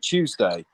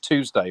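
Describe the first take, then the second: First: It begins with a 'ch'-like sound, as in 'choose'. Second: It begins with a plain 't' sound, as in 'tooth'. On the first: "in the U K, we we like round off the U" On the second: "instead of"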